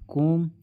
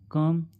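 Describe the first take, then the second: First: The vowel sounds like 'oh'. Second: The vowel sounds like 'uh'. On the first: The speaker calls it wrong. "इसे हम कोम नहीं पढ़ते" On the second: The speaker calls it right. "अ से पढ़ते हैं"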